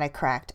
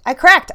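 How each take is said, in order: First: Said in the usual way. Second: Cracked said much higher and louder, bursting out; emphatic outburst. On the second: Real, not acted. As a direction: blurt it out, real release. Emphatic repeat of breakthrough.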